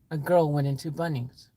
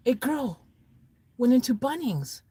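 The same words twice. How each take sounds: First: Low, understated answer; matter-of-fact reply. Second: High, questioning repeat of the answer; baffled echo. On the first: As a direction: answer low and evenly, falling away. Story character gives the answer. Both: Acted.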